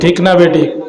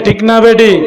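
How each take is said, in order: First: It is said at normal loudness. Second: It is said more loudly.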